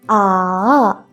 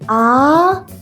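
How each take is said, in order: First: The pitch dips down, then rises. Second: The pitch rises like a question. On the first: "Drop your voice first and then rise up" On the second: "Raise your voice like a question"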